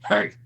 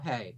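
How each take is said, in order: First: It is said in a deep, gravelly voice. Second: It is said in a light, soft voice.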